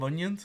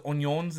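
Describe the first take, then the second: First: Said in the usual way. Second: ONIONS said the Louisiana cook's way; imitated regional "onions". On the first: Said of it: "instead of onions". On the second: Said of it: "he says onions instead of onions".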